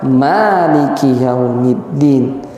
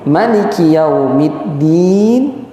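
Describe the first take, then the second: First: The vowel after the m is long. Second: The vowel after the m is short. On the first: This is how another classical reciter reads it. "membacanya dengan memanjangkan" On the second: This is how one classical reciter reads it. "maliki dengan memendekkan mim"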